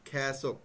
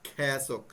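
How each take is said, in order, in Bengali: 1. প্রথম স্বরধ্বনিটি 'ae' এর মতো শোনায়। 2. প্রথম স্বরধ্বনিটি 'ae' এর মতো শোনায়।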